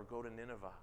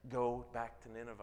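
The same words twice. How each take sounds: First: "Go to Nineveh." said much softer, a quiet self-correction. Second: Said in the usual way. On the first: Shown as a demonstration. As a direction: drop the voice right down on "Go to Nineveh.".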